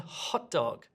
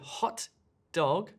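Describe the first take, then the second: First: The t is dropped, keeping only the d. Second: The t and d are pronounced separately. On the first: The speaker calls it right. "what we always say in spoken speech" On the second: The speaker calls it wrong. "sounds unnatural"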